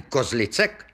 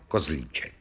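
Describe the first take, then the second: First: "Kozlicek" said with a ts sound before the final -ek. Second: "Kozlíček" said with a long í and a ch sound. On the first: Policeman asking for the surname, "Kozlicek" with a ts sound. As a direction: say "Kozlicek" with c as ts, not ch. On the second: Villagers' form of the surname, "Kozlíček" with a ch sound. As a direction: say "Kozlíček" with č as ch, not ts. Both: Acted.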